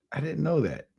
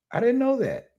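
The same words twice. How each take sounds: First: Said in the usual way. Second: Squeaky high mock astonishment; mock surprise. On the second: Vlogger feigning shock at British accents, high squeaky voice. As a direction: fake wide-eyed amazement, pitched way up.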